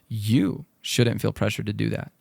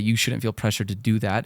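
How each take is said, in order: First: The word 'you' is stressed. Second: The word 'you' is not stressed. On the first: The listener personally should be able to handle it without pressure. "you, out of all people, are good enough to do this" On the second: Someone else is putting pressure on the listener. "it sounds like someone else"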